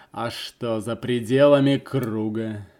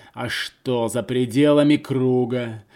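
No difference in how they are said.

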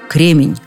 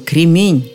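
First: The stress falls on the first syllable. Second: The stress falls on the last syllable. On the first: The speaker calls it wrong. "Так хорошо сказать о замечательном человеке и допустить ошибку" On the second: The speaker calls it right. "Именно такое ударение в этом слове"

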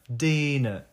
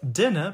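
First: The first vowel is drawn out and lengthened. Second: The first vowel is short and crisp. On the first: The speaker calls it wrong. "если делать русское ударение на этом кратком «э»... получится «dinner»" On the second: The speaker calls it right. "вместо «dinner»"

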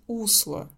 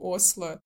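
First: The word begins with a 'u' sound. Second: The word begins with an open 'o' sound. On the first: The speaker calls it right. "В лучшем случае они скажут усло" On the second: The speaker calls it wrong. "я все время говорю осло"

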